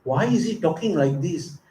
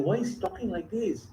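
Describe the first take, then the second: First: A lightly voiced hurt wife asking herself; puzzled, wounded, half to herself; hurt wondering. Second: Softer, higher, wounded murmur; distressed, hushed. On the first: Rukmini stunned by her husband's teasing, lightly hurt. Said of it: "She said". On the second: Acted. Rukmini stunned by her husband's teasing, softly distressed. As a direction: barely get it out, hurt. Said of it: "distressed that Krishna talking like".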